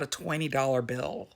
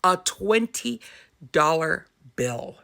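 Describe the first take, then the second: First: Said in the usual way. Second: "A twenty ... dollar bill" broken by a pause, "twenty" lifted; deliberate emphasis. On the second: Real, not acted. Mom stunned by the amount, deliberate emphasis.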